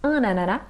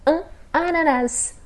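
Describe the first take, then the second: First: The final S of ananas is silent. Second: The final S of ananas is pronounced. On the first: "Se a gente pronunciar sem o S" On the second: "com o S"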